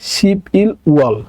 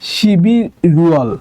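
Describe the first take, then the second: First: Each syllable is said separately, without linking. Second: The consonants carry over, linking the syllables.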